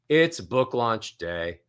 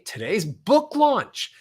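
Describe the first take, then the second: First: The melody falls from high to low. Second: The melody rises from low to high.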